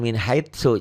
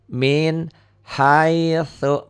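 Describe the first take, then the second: First: The consonant is a plain hissing 's' sound. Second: The consonant is a soft 'th' with tongue at teeth. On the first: The speaker calls it wrong. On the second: The speaker calls it right. "Jadi ujung lidah ke ujung gigi"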